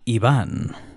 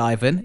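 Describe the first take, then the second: First: The name is said with Spanish pronunciation. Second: The name is said with English pronunciation. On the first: "the Spanish pronunciation" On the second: "the typical English spelling would be Ivan"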